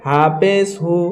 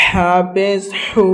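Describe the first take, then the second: First: হাফেজ হু with a light h; thin sound. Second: Very slow হাফেজ হু with a strong throaty h; from the throat. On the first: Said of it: "পাতলা আওয়াজে". (পাতলা আওয়াজে হাফেজ হু) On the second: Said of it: "একদম হালাক থেকে". (হালাক থেকে টেনে হাফেজ হু) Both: Shown as a demonstration.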